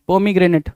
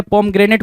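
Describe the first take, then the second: First: पोमीग्रेनेट with "mee" in the middle; four-syllable pronunciation. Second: पोमग्रेनेट with no vowel after "pom"; variant pronunciation. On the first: Teacher says the word for spelling, पोमीग्रेनेट with "mee". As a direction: say पोमीग्रेनेट as "po-mee-gre-net". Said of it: "तो जैसा पोमीग्रेनेट बोला". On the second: Teacher shows how some people say it, पोमग्रेनेट as "pom-grenet". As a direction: say पोमग्रेनेट as "pom-gre-net", three syllables. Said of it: "कुछ लोग पोमग्रेनेट भी बोलते हैं". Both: Shown as a demonstration.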